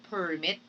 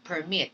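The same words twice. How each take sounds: First: "permit" stressed on the first syllable, PER-mit. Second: "permit" stressed on the second syllable, per-MIT. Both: Shown as a demonstration. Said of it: "the er and the air in permit".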